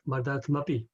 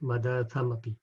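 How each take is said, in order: First: The vowel after 'madat' is dropped. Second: The vowel after 'madat' is pronounced. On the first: The speaker calls it wrong. "if she was reading in Devanagari, then she was going to say" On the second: The speaker calls it right. "English is correct"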